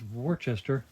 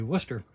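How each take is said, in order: First: The word is said with three syllables. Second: The word is said with two syllables. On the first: This is how it looks from the spelling. The speaker calls it wrong. "which I always pronounced Worcester" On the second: This is the accepted local pronunciation. The speaker calls it right. "it's supposed to be Worcester"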